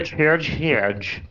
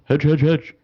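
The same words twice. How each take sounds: First: It is said in a Southern US accent. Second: It is said in a neutral accent.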